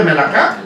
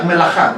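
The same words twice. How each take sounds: First: Melaká said with a hard k, me-la-KÁ; spelled reading. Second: Melajá said with a throaty j, me-la-JÁ; proper pronunciation. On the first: Pastor shows the congregation how the word is spelled, melaká with a hard k. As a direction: read melaká as written, crisp k sound. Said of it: "ya les dije que se escribe melaká". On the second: Pastor teaches the congregation to say melajá with a throaty j. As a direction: turn the k of melajá into a rasping Spanish j. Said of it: "La K se pronuncia como J". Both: Shown as a demonstration.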